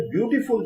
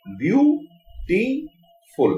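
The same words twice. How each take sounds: First: Said in the usual way. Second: beautiful very slow, in three separate beats; syllable by syllable. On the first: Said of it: "जब शब्द हम बोलते हैं". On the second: Shown as a demonstration. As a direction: count out the syllables of beautiful with long pauses. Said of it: "ये तीन syllable हो गए". (Beautiful को बहुत धीरे, तीन अलग सिलेबल में बोलें)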